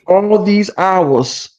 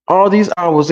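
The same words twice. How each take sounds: First: Slow, with "all" drawn out and leaned on; stress on all. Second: "these" leaned on, at normal pace; quicker repeat, hitting "these"; stress on these. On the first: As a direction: drag out "all these hours" and weight the word "all". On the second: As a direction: punch the word "these" in "all these hours". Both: Shown as a demonstration.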